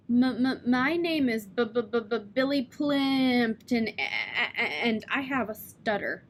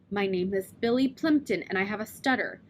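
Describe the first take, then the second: First: Repeated blocks on m, b and a, Billy stretched slowly; heavy stutter. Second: Said in the usual way. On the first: Shown as a demonstration. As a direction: practise the stutter in the mirror, stuck on each start. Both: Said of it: "If I don't stammer when I'm saying it".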